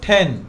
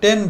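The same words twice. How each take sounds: First: The t is breathy and aspirated. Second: The t is plain and unaspirated. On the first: The speaker calls it right. "কারণ টিকে আমরা ঠি বলি" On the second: The speaker calls it wrong. "আমরা কি বলি?"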